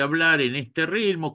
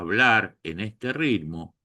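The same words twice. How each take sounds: First: It is spoken at an ordinary conversational speed. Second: It is spoken noticeably more slowly than usual. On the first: "que puede ser mi ritmo habitual para una conversación" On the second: "que no es mi ritmo normal de conversación"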